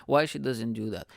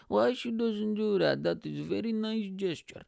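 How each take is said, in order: First: Said in the usual way. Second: Put-on high-pitched, accented dad voice; put-on high voice for a puzzled dad; dad impression. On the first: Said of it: "I'm mixing the accents now". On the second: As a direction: imitate dad in a raised, accented voice. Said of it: "And my dad goes".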